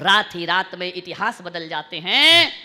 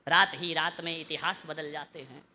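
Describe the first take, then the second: First: Louder line swelling at the end; emphatic recitation. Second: Low, soft couplet line; quiet, lowered delivery; hushed recitation. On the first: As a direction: start measured, then project the ending. Second line repeated louder. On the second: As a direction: recite it with the voice held down. Second line low, later repeated loud. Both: Real, not acted.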